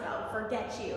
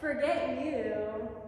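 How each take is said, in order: First: It sounds flatly dismissive and cold. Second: It sounds playful, teasing and flirtatious.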